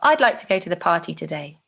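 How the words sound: The voice falls at the end.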